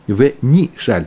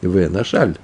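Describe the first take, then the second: First: "нишаль" with an EE in the first syllable; "нишаль" read NI-SHAL, not NA-SHAL; read as written. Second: "нашаль" with an A in the first syllable; "нашаль" read NA-SHAL, not NI-SHAL; read as pronounced. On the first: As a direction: say "нишаль", opening on NI, stress on the end. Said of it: "Так написано". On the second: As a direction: say "нашаль", opening on NA, stress on the end. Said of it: "Так произносится это слово". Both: Shown as a demonstration.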